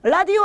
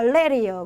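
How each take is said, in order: First: The first vowel is a plain Korean 'a'. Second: The first vowel is an English-like 'e'.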